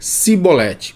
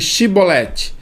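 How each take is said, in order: First: The word begins with an 's' sound. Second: The word begins with a 'sh' sound. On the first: The speaker is from Ephraim. The speaker calls it wrong. "eles pronunciavam diferente" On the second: The speaker is from Gilead. The speaker calls it right. "fale para nós aí, Shibolete"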